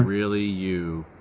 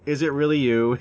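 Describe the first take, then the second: First: The voice is flat with little pitch change. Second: The voice is lively with varied pitch.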